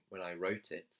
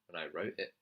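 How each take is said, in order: First: The T in wrote is clearly pronounced. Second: The T in wrote becomes a glottal stop. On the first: "he's not saying when I wrote it. He's not pronouncing the T" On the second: "He's saying when I wrote it. ... When he drops the T, that's called a glottal stop"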